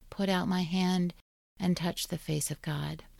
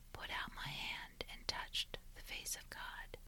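First: It is said in a normal voice. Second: It is whispered.

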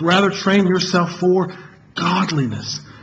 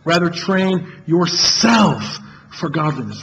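First: The word "godliness" carries the main stress. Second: The word "yourself" carries the main stress.

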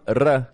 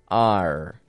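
First: The R sound is rolled. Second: The R sound is plain, not rolled. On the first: The speaker calls it wrong. "They don't want R" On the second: The speaker calls it right. "they want R"

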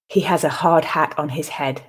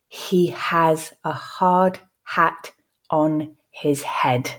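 First: The sentence is said at a natural pace. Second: The sentence is said slowly. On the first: "I will then read it at a more natural pace" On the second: "I will read the sentence first slowly for you to grasp the words"

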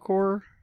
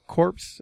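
First: It ends in a plain vowel, no consonants. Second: It ends with audible p and s sounds. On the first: The speaker calls it right. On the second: The speaker calls it wrong.

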